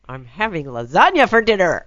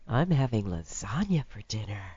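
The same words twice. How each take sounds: First: It is said as a firm demand. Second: It is said in a seductive way.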